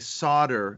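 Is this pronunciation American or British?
American. It is said with an American pronunciation. "I say solder"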